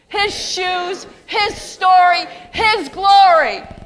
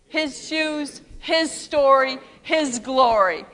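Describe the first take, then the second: First: It is said loudly and peppily, like cheering. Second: It is said in an ordinary, even way. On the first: "Say it again like a cheerleader" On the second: "Say that with me"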